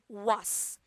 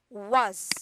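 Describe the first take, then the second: First: The word ends with an s sound. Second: The word ends with a z sound. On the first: The speaker calls it wrong. "a lot of people usually they will say just was. No" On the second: The speaker calls it right. "So we pronounce this as z. It will be was"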